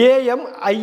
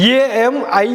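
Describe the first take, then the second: No difference in how they are said.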